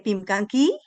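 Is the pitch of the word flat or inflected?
inflected. The pitch changes like a question. The speaker calls it wrong.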